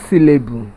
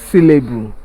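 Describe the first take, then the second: Both takes have the same delivery.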